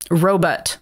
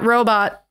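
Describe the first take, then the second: First: The word ends with a 'butt' sound. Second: The word ends with a 'bot' sound. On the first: "Like R O W B U T T" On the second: "Not robot"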